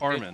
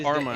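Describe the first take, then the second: First: The last syllable sounds like 'men'. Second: The last syllable sounds like 'mine'. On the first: The speaker calls it right. "when you say it in a feminine way, it's Carmen" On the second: The speaker calls it wrong. "it's not Carmine"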